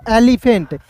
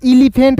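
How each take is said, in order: First: एलिफेंट starting with "eh": "EH-li-fent"; first E as "e". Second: एलिफेंट starting with "ee": "ee-li-fent"; first E as "i". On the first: Teacher answering for students, एलिफेंट begun with "eh". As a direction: say एलिफेंट with an opening "eh", not "ee". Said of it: "ई का उच्चारण ए के रूप में करेंगे". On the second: Teacher showing a misreading to avoid, एलिफेंट begun with "ee". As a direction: say एलिफेंट with an opening "i" sound. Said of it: "इसे एलिफेंट नहीं पढ़ेंगे". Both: Shown as a demonstration.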